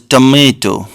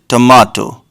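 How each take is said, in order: First: It is said in an American accent. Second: It is said in a British accent. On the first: "Americans call this tomato" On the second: "British people call it tomato"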